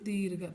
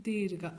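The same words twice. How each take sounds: The two takes are said the same way.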